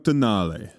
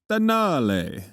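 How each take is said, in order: First: The word is said in a plain English accent. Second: The word is said in an Italian accent.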